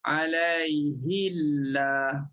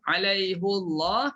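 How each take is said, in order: First: The pronoun carries an i vowel before Allah. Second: The pronoun carries a u vowel before Allah. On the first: This is the Warsh reading. "bagi Warash dibaca dengan ha baris di bawah" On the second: This is the Hafs reading. "Alaihu ha baris depan"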